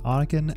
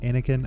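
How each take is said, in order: First: It is not said like the Star Wars name. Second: It is said like the Star Wars name. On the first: The speaker calls it right. "It is Anakin" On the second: The speaker calls it wrong. "not Anakin. I was thinking Star Wars"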